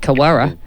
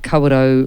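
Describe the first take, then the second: First: The name is said with English-style, clipped vowels. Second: The name is said with Māori-style vowels.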